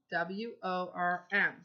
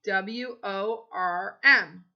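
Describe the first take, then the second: First: Said in the usual way. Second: Slow spelling. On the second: Shown as a demonstration. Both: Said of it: "Worm's over here".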